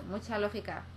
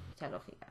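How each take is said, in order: First: Said in the usual way. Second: Whispered, dry repeat; deadpan whisper to herself; muttered aside. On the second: Real, not acted. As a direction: say it again under your breath, sarcastic. Sarcastic repeat under breath.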